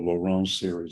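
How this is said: The name is said with a French accent. "in French, it's something closer to"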